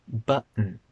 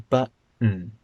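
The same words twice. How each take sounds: No difference in how they are said.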